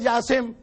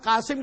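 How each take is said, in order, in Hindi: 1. नाम की शुरुआत j आवाज़ से होती है। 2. नाम की शुरुआत गहरी q आवाज़ से होती है।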